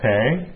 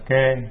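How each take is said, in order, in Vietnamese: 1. Từ này bắt đầu bằng âm kh bật hơi. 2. Từ này bắt đầu bằng âm k thường. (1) "có khi người ta đọc là khể" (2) "có khi họ đọc là kê"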